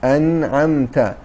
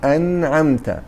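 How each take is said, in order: Both takes have the same delivery.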